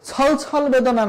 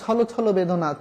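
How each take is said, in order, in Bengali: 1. প্রতিটি 'chhol' খাঁটি ব্যঞ্জনে শেষ হয়। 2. প্রতিটি 'chhol' 'o' স্বরে শেষ হয়। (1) "না" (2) "ওকার ব্যবহৃত হবে"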